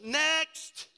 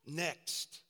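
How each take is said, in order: First: High, loud shout to a waiting line; big mock store-clerk yell; calling out. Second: Said in the usual way. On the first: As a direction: holler it like a checkout clerk.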